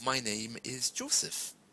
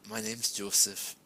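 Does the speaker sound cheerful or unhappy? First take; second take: cheerful; unhappy. First: The voice sounds cheerful and upbeat. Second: The voice sounds flat and unhappy. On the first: The speaker is fine. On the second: The speaker is not okay.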